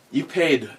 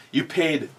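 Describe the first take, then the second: No difference in how they are said.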